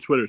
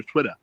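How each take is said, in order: First: Said in the usual way. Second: Twitter as "TWIT-ah", no final R; dropped R. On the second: Shown as a demonstration. Contrasting with the standard word, Twitter as "TWIT-ah". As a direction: open the end of Twitter to "ah". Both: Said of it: "Instead of Twitter".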